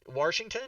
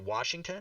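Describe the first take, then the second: First: The first syllable has an added R sound. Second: The first syllable has no R sound. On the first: The speaker calls it wrong. "why do you pronounce the name of the state we live in with an R in it?" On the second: The speaker calls it right. "Oh, so you can say it"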